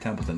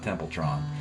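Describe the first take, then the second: First: The last syllable has no r sound. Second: The last syllable has an r sound. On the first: The speaker calls it right. "it's Gary Templeton" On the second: The speaker calls it wrong. "not Templetron"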